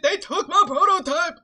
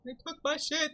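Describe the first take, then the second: First: Much louder and higher, laughing; shouting and laughing at once. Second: Loud outburst. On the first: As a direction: yell it through laughter. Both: Acted.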